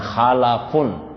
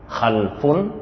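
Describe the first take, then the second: First: The word has three syllables, a vowel after l. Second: The word has two syllables, no vowel after l. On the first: A good generation of successors. "dengan huruf lam yang dibaca fathah" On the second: A bad, corrupt generation of descendants. "dengan huruf lam yang disukun"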